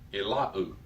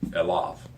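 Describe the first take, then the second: First: The word ends in a u vowel. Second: The word ends in a v sound. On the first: The speaker calls it wrong. "temptation is to pronounce unto the, unto him as Elau" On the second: The speaker calls it right. "you pronounce it with the V"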